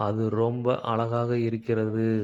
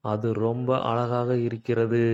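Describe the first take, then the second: No difference in how they are said.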